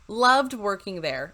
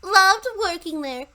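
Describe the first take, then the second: First: It is read in the speaker's natural voice. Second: It is read in an exaggerated put-on voice.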